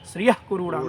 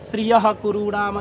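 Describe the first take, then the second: First: The visarga before 'ku' is a reduced half sound. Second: The visarga before 'ku' is a full breathy h. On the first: The speaker calls it right. "अब वो अर्ध विसर्ग की तरह उसका उच्चारण करोगे" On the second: The speaker calls it wrong. "अब ऐसा नहीं कह सकते"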